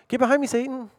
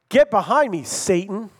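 First: It is said in a loving tone. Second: It is said in a harsh tone.

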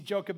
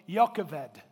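First: The name is pronounced with English sounds. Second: The name is pronounced with Hebrew sounds. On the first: "We see Jochebed and it makes sense to us" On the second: "if you want to pronounce it in the Hebrew, would have said something much more like Jochebed"

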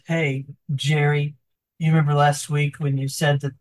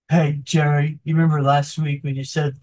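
First: It is said in a plain, natural voice. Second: It is said in a put-on character voice.

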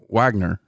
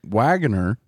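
First: The middle vowel syllable is dropped. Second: The middle vowel syllable is pronounced.

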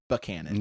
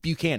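First: The name gets a different, local pronunciation. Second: The name gets its usual, nationally known pronunciation. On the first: How local residents say the town's name. "everyone out there pronounces it" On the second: The familiar name of the president. "It is spelled as"

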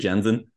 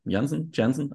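First: The name is pronounced the American English way. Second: The name is pronounced the German way. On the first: "Probably the Americans would say Janssen" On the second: "when we say Famke Janssen, because it sounds so German"

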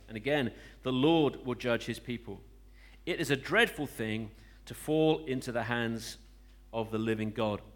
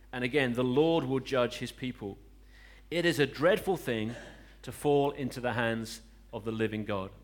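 No difference in how they are said.

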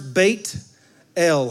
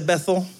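First: It is said as two Hebrew words, Beit El. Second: It is said as one English word, Bethel. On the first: "in the Hebrew. Two words" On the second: "that's the English pronunciation"

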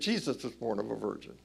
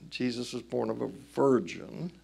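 First: The emphasis falls on the word Jesus. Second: The emphasis falls on the word virgin. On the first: The scandal is that it was this man. The speaker calls it right. "It's right to say" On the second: The miracle is the virgin birth itself. The speaker calls it wrong. "It is wrong to say"

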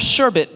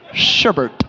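First: No R sound is in the last syllable. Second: An extra R sound is in the last syllable. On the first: The speaker calls it right. "The way you're supposed to say it is sherbet" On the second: The speaker calls it wrong. "We put an extra R at the end when we say it"

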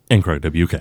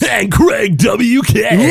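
First: It is said in a flat, plain way. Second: It is said with hyped-up, high energy.

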